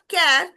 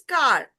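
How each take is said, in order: First: The vowel sounds plain, without R coloring. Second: The vowel is colored by the R sound. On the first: The speaker calls it wrong. "it's not car" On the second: The speaker calls it right. "it is car. R sound"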